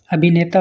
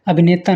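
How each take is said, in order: First: अभिनेता as the model take, fuller bhi; corrected vowel. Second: अभिनेता as the mistaken take, quick bhi; wrong vowel. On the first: Teacher corrects students, fuller middle vowel. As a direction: give bhi full weight in अभिनेता. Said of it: "होता है". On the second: Teacher shows students the mistake, quick middle vowel. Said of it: "नहीं". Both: Shown as a demonstration.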